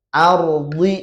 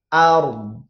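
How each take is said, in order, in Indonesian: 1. Vokal akhir dilafalkan penuh dan jelas. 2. Vokal akhir dipotong pendek hingga tinggal sedikit jejak. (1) "Ardi kan harusnya ini ard" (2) "itu cepat"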